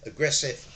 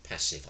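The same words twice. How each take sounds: First: Mock aggressive tone. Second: Mild passive tone. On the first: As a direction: say it with an aggressive edge. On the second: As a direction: lower and softer. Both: Shown as a demonstration.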